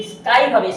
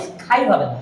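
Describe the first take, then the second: First: Said in the usual way. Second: স্কাই said as স্খাই, lower, with a puff on the k; the wrong breathy স্কাই; wrong aspirated k. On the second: Shown as a demonstration. (ভুল উচ্চারণ: স্খাই)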